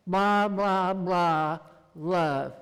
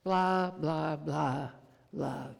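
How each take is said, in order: First: Loud, sing-song child mimicking the preacher; a schoolgirl parroting a sermon, loud; mocking little girl. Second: Gentle repetition. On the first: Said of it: "second grade daughter chimed in and says". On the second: Shown as a demonstration. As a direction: say it lovingly, letting it fade. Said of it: "over and over again".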